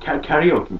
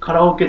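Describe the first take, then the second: First: It is said with American pronunciation, kya-ri-o-ki. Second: It is said with Japanese pronunciation, ka-ra-o-ke. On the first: "アメリカの方とかでは英語ではなんかキャリオーキーって伝わってる" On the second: "カラオケじゃなくて"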